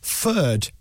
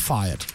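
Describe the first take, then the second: First: The vowel is flattened so it sounds like 'fur'. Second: The vowel is a full 'fire' diphthong.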